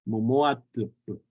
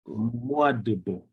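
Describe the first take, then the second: First: The word uses voiceless t and p sounds. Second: The word uses voiced d and b sounds. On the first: This is how another regional community says it. "like in McDermott and Pyramid Lake area, this D at the end is a T sound" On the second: This is how the local community says it. "for us here in the Shurs way"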